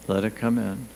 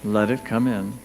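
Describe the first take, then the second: No difference in how they are said.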